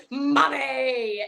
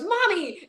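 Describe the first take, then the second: First: Mock childish "Mommy"; lightly voiced mimicry of a child; grown man imitating the kid. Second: Lightly voiced little kid, high; a hint of a child calling for mom; child calling mommy. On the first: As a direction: copy the boy's call, playfully. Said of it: "then Ryan goes". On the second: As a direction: call out like a small boy. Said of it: "Gordon goes".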